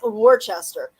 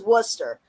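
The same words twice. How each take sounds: First: Every written letter of the name is sounded. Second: The name is said in a shortened form. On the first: The speaker calls it wrong. "it's spelled like W O R C. It's it's like" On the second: The speaker calls it right. "but it's"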